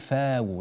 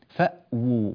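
First: The glottal stop is dropped into a long vowel. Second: The glottal stop is clearly pronounced. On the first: The speaker calls it wrong. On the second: The speaker calls it right.

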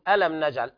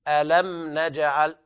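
First: It is said flatly, like a plain statement. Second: It is said with a questioning tune. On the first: It sounds like the word for pain. The speaker calls it wrong. "لا تقول ألم نجعل، ألم من الألم والتوجع" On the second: It asks a question. The speaker calls it right. "الصواب ألم نجعل ألم بهذه الطريقة، فتقرأ بصيغة الاستفهام"

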